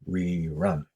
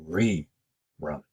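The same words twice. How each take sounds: First: The stress is on the second syllable. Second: The stress is on the first syllable. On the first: The speaker calls it wrong. "not rerun" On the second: The speaker calls it right. "the stress is on the re"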